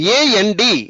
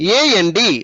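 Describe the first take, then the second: No difference in how they are said.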